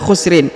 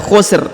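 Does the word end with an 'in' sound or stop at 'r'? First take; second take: in; r. First: The word ends with a vowel and nasal 'in'. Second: The word stops short on the final 'r'. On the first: The speaker calls it wrong. "ini tidak dibaca khusrin" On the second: The speaker calls it right. "tapi dibaca khusr ya, disukunkan huruf ujungnya"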